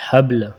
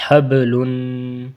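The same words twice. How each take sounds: First: حبل cut short, ل silent, ب jolted; pausal stop. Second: Slow حبلن with full nunation; drawn-out حبلن; joined reading. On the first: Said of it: "ایک ہوتا ہے وقفاً". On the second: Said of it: "ملا پورا پڑھتے ہیں". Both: Shown as a demonstration.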